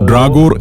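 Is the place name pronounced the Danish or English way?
English. The name is pronounced the English way. The speaker calls it wrong. "English അക്ഷരങ്ങൾ ചേർത്ത് ഡ്രാഗോർ എന്ന് പറയുമെങ്കിലും അതല്ല ശരിയായ ഉച്ചാരണം"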